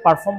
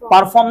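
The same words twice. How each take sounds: First: The R after the first vowel is clearly pronounced. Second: The R after the first vowel is dropped. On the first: "আমেরিকানরা আরটা উচ্চারণ করে থেকে পারফর্ম বলে" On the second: "British accent follow করি আমরা এটাকে hide করব"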